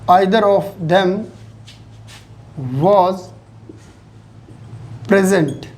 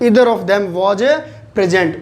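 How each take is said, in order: First: 'Either' begins with an 'eye' vowel sound. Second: 'Either' begins with an 'ee' vowel sound. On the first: The speaker calls it wrong. "यही बोलते हैं ना अपने" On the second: The speaker calls it right. "जबकि उच्चारण क्या होता है?"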